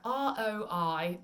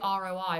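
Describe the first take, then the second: First: Each letter is articulated with exaggerated, careful precision. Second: The letters are said in a plain, relaxed way.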